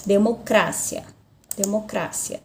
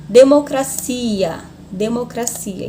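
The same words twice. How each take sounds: First: DEMOCRACIA stressed on CRA, de-mo-CRA-cia; Spanish stress. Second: DEMOCRACIA stressed on CI, de-mo-cra-CI-a; Portuguese stress. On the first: Teacher shows where Spanish moves the stress, on CRA. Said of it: "é no cra". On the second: Teacher demonstrates the Portuguese tonic syllable, stress on CI. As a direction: lean on the CI of DEMOCRACIA. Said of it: "a sílaba tônica é no si". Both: Shown as a demonstration.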